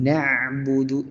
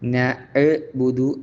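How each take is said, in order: First: The 'ain sound is cut short quickly. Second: The 'ain sound is held long and slowly. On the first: The speaker calls it right. "പെട്ടെന്ന് ഉച്ചരിക്കേണ്ടതുണ്ട്" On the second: The speaker calls it wrong. "ആ ഒരു സാവകാശം കൊടുക്കാതെ"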